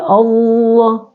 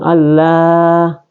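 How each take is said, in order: First: The l sound is thick and heavy. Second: The l sound is thin and light. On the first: The speaker calls it right. "tafhim artinya tebal" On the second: The speaker calls it wrong. "Jadi bukan Allah"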